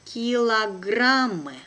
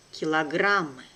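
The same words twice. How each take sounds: First: Slow and careful, drawn out for learners; teacher's careful slow reading. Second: Brisk, natural native speed; quick native pace. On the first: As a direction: spell it out slowly for the class. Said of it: "one first time will be slow". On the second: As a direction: say it fast like a native. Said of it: "second time will be quickly, like a native". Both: Shown as a demonstration.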